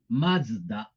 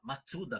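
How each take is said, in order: First: The middle is a z sound with no vowel. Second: The middle is a full tsu syllable. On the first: The speaker calls it right. "é Mazda" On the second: The speaker calls it wrong. "Não é mas, ma, Matsuda, como muita gente fala"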